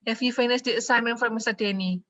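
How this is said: It is said with statement intonation. The speaker is telling, not asking. The speaker calls it wrong. "Itu nggak nanya, ya. Itu ngasih tahu"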